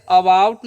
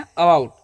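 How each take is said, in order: First: About with a full "a" at the start, aa-bout; wrong full about. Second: About with a short, quick, unstressed first "a"; quick weak a. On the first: Teacher showing students the wrong way, full vowel. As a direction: deliberately say about with an open first vowel. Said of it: "इसे about नहीं पढ़ते हैं". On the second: Teacher showing students the right way, weak quick a. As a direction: rush the a in about, stress bout. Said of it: "अ को हम जल्दी में बोल रहे हैं". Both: Shown as a demonstration.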